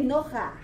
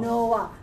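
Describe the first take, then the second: First: "Noah" misread as "No-ha"; mispronounced Noah. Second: "Noah" as "No-ach", vowel first; correct Hebrew Noah. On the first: Teacher imitating a learner's likely misreading, "Noah" mispronounced as "No-ha". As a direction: say "Noah" with a rough h sound before the final a. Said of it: "You will probably say". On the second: Teacher showing how to read furtive patach, "Noah" with vowel before consonant. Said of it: "and then you go up". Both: Shown as a demonstration.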